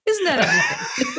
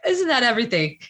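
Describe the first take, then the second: First: Higher, laughing, rising at the end; laughing repeat. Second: Said in the usual way. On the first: Real, not acted. Repeating the question to her guest with a laugh.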